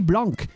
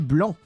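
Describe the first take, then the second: First: The final C sound is pronounced. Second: The final C sound is silent. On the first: The speaker calls it wrong. "You do not say blanc" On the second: The speaker calls it right. "you do not pronounce the C. You say blanc"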